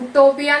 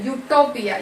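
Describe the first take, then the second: First: The word begins with a plain vowel sound. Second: The word begins with a 'y' sound. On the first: The speaker calls it wrong. "ഉട്ടോപ്പിയ എന്നല്ല" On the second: The speaker calls it right. "യുട്ടോപ്പിയ എന്നാണ് നമ്മൾ pronounce ചെയ്യുന്നത്"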